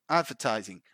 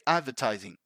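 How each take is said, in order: Both takes have the same delivery.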